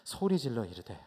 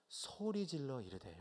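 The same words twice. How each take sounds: First: 소리 질러 이르되 pushed out louder, leaning on 소리 질러; emphatic repeat. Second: 소리 질러 이르되 read slowly and softer, each word set apart. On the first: Preacher stressing the verse for the congregation to underline. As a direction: punch 소리 질러 이르되 so it gets underlined. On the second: Preacher reading the verse to the congregation, slow and soft. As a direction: lay out 소리 질러 이르되 slowly and quietly before the emphasis. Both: Shown as a demonstration. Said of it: "여기 한번 밑줄 한번 쳐보십시오".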